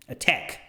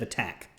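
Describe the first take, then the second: First: The stressed vowel sounds like 'eh'. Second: The stressed vowel is an open 'a' sound. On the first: "the ah sound comes across sounding like eh" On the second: "instead of attack"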